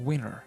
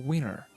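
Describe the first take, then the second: The two takes are said the same way.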